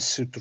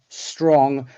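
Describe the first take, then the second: First: A vowel is inserted after the s. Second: The s-t-r cluster has no vowel inside. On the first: The speaker calls it wrong. "rather than sutra" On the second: The speaker calls it right. "Consonant clusters"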